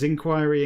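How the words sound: It is said the English way. "Is inquiry English"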